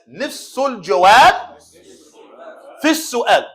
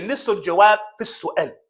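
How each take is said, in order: First: Each phrase set apart, الجواب lifted; clear model for class. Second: Proverb rattled off fast. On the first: Teacher modelling the saying for class to repeat, phrase by phrase. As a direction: model الجواب clearly, then pause before في السؤال. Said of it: "Come on, class". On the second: Teacher rattling off a proverb fast to the class. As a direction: run the Arabic saying together quickly. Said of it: "for as we say". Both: Shown as a demonstration.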